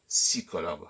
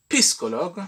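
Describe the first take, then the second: First: "psychologue" said si-ko-logue, p dropped; "psychologue" as sikologue, no p at all; silent p. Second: "psychologue" with the p sounded, pis-ko-logue; "psychologue" said piskologue, s and p swapped; usual pronunciation. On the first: Teacher to online pupils, proposing "psychologue" as sikologue without the p. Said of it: "pourquoi ne pas dire psychologue simplement". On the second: Teacher to online pupils, showing the usual "psychologue" as piskologue. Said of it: "au lieu de dire". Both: Shown as a demonstration.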